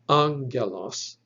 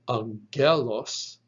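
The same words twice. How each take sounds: First: The stress is on the first syllable. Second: The stress is on the second syllable. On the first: The speaker calls it right. "The accent or the emphasis should be on that first syllable" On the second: The speaker calls it wrong. "It is not pronounced"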